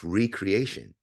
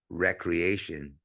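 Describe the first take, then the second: First: The word begins with a long 'ree' sound. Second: The word begins with a short 'rec' sound. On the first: Creating oneself anew. "it's recreation" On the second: Leisure or play. "the way we pronounce it"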